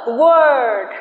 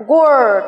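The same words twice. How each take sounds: First: "word" with a long, ringing er vowel. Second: Said in the usual way. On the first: Shown as a demonstration. Teacher showing the long er sound in word. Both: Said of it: "cần phải ngân vang hơn".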